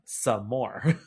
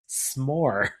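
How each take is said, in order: First: It is said as two full syllables. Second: It is said as one short syllable. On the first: The speaker calls it wrong. "it's pronounced some more because you always want some more" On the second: The speaker calls it right. "no, it's just pronounced s'more"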